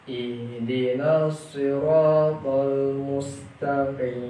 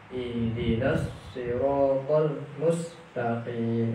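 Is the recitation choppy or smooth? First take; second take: smooth; choppy. First: The words flow smoothly without pressing each sound. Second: Each sound is pressed and the words are broken up. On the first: The speaker calls it right. "Maka dibacanya mengalir saja" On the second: The speaker calls it wrong. "terputus-putus ... belum mengalir bacaannya, melainkan masih ditekan-tekan"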